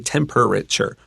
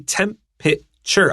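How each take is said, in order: First: The middle 'er' syllable is pronounced. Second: The middle 'er' syllable is dropped. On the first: "they like to say temperature" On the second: "I don't say that E R naturally"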